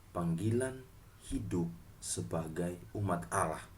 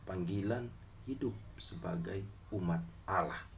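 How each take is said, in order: Both takes have the same delivery.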